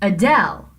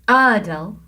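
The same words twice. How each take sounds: First: The stress is on the second syllable. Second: The stress is on the first syllable. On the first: The speaker calls it right. "del is the stressed syllable" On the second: The speaker calls it wrong. "you couldn't say Adele"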